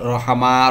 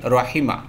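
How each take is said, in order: First: The middle vowel is an a sound. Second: The middle vowel is an i sound. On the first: The speaker calls it wrong. "Not রহামা। রহামা হবে না" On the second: The speaker calls it right. "তাহলে রহিমা"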